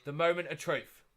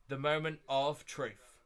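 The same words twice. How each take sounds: First: Said in the usual way. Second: "The moment of truth" drawn out slowly; slow, deliberate "moment of truth"; slow suspense. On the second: Real, not acted. Repeats for suspense before draw.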